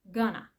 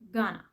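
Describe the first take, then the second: First: The words are blended into one reduced form. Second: The same.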